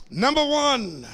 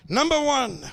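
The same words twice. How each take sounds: The two takes are said the same way.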